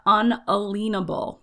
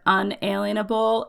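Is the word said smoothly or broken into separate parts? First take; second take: broken; smoothly. First: The word is split into parts with breaks. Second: The word is said smoothly as one unit.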